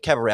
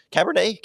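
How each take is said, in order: First: Cabaret said as cab-a-RAY, no n sound; trying out Cabaret; unsure which word he means; Cabaret pronounced. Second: Cabernet said as cab-er-NAY, higher, asking; trying out Cabernet with the n sound; unsure which word he means; Cabernet pronounced. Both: Shown as a demonstration. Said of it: "I don't even know if I".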